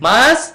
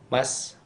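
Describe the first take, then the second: First: The word is said with a raised, emphasized voice. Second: The word is said plainly, without raised emphasis. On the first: "beda kan kesannya kan?"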